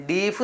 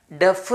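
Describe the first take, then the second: First: 'ഡീഫ്' with a long EE vowel; wrong pronunciation. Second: 'ഡെഫ്' with a short E vowel; correct pronunciation. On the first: Teacher warns pupils against misreading deaf, wrong long-EE pronunciation. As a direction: say 'ഡീഫ്', rhyming with leaf. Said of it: "എന്ന് വായിക്കില്ല". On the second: Teacher shows pupils how deaf is read, correct short-E pronunciation. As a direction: say 'ഡെഫ്', rhyming with chef. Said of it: "എന്നാണ് വായിക്കുക". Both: Shown as a demonstration.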